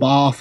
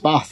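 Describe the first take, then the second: First: It is said in a southern English accent. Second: It is said in a northern English accent. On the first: The speaker calls it wrong. "every Brit you find on YouTube is from the south" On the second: The speaker calls it right. "it's up here"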